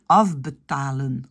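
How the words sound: It is said with a relaxed, lax mouth, Flemish-style. "un flamand va dire afbetalen"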